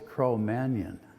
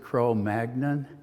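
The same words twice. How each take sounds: First: The gn is said as a ny sound. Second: The gn is said with a hard g. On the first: The speaker calls it right. "sort of like filet mignon" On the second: The speaker calls it wrong. "I used to always pronounce it"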